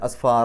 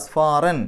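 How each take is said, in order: First: The word ends with a lengthened vowel. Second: The word ends with an n sound. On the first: "അത് എന്നിട്ട് കുറച്ച് നീട്ടുക" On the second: "അവിടെ റൻ ഫത്തഹ് തൻവീനല്ലേ"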